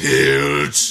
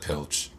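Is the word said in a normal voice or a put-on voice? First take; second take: put-on; normal. First: It is said loudly in an exaggerated put-on voice. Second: It is said in the speaker's normal voice.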